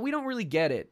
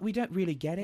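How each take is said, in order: First: It is said in the speaker's ordinary accent. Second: It is said in a put-on British accent.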